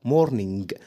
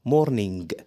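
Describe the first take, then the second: The two takes are said the same way.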